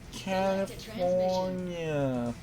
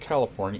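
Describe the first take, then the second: First: It is said in a put-on, quoted manner. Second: It is said in a plain, ordinary way. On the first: The speaker calls it right. "It's California. ... in case you don't get the reference, that's the Wizard" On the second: The speaker calls it wrong. "I keep saying it wrong. It's not California"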